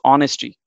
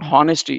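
First: The word begins directly with a vowel sound. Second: The word begins with an audible h sound. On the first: The speaker calls it right. "it's honesty" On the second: The speaker calls it wrong. "It's not honesty"

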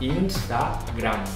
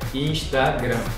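First: It is said with a Spanish pronunciation. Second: It is said with a Brazilian Portuguese pronunciation. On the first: "não esquece que vocês têm que fechar a boca, né? A gente fala Instagram" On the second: "Mas em português vocês falam Instagram"

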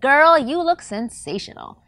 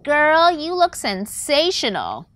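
First: It is said with confident, owned emphasis. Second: It is said in an exaggerated feminine manner.

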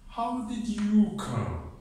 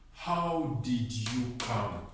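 First: The stress falls on the word 'you'. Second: The stress falls on the word 'how'. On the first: The speaker wants to know about this one person, not the others. "I'm stressing you" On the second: The speaker wants to know the means of transport. "I can put the stress on the how"

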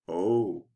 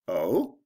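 First: The 'oh' sounds wary. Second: The 'oh' sounds surprised. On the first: The speaker feels they must be careful. "I better be careful" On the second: The speaker did not know the news. "I didn't realize that"

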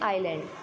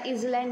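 First: It is said with no s sound: eye-land. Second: It is said with a short i and z: iz-land. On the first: The speaker calls it right. "इसकी pronunciation क्या होगी, आइलैंड" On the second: The speaker calls it wrong. "या इजलैंड नहीं बोलेंगे"

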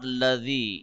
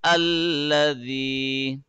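First: The word begins directly with an l sound. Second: The word begins with a short a vowel. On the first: The speaker calls it wrong. "So it will be not ladhi" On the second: The speaker calls it right. "it will be alladhi"

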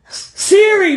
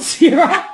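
First: The name ends with an 'ee' vowel. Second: The name ends with an 'uh' vowel. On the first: The speaker calls it right. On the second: The speaker calls it wrong. "not Sira"

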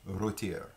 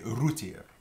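First: The first vowel is an 'oh' sound. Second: The first vowel is an 'oo' sound. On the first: "instead of saying the O" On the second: "We would typically say rôtir. So instead of saying the O, we say the OO in that case"

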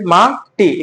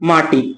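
First: The word is split with a break between syllables. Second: The word is said smoothly without a break.

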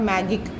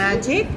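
First: The middle consonant is a hard g sound. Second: The same.

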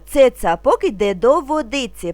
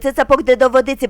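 First: The phrase is spoken a little faster. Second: The phrase is spoken very quickly. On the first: "трошки швидше" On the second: "дуже швидко"

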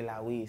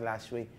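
First: The name is said without any s sound. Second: The name is said with an s sound inside. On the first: This is the Swahili pronunciation. The speaker calls it right. "Swahili, that be Lawi" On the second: This is the English reading of the spelling. The speaker calls it wrong. "In English, I guess it'll be pronounced Lasway"

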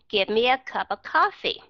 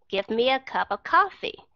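Both takes have the same delivery.

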